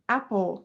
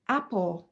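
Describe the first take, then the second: The two takes are said the same way.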